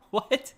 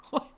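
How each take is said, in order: First: High, loud startled "What?"; sudden rising disbelief; surprised. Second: Said in the usual way. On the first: Real, not acted. Reacts to the sale price.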